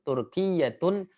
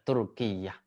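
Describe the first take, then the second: First: The word ends with a full voweled ending. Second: The word ends cut short without a vowel. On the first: It shows the grammatical ending for practice. "saya sebutkan" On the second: It is the normal form when stopping in speech. "hendaklah dia disukunkan"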